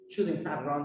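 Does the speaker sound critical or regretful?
critical. The tone sounds disapproving and critical. The speaker blames her for what happened. "I'm criticizing her"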